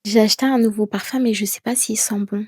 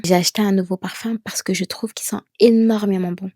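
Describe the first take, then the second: First: Quick, doubtful trailing off; unsure statement. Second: Confident, énormément leaned on; certain statement. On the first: Teacher shows an uncertain sentence about her new perfume, doubtful. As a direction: sound like you doubt yourself. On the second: Teacher shows a confident sentence about her perfume, assured. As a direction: end the sentence with full certainty. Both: Shown as a demonstration. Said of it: "finir tes phrases avec certitude".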